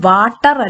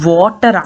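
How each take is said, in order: First: It starts with an unrounded 'v' sound. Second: It starts with a lip-rounded 'w' sound. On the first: The speaker calls it wrong. "ഇത് വാട്ടർ അല്ല" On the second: The speaker calls it right. "you round your lips"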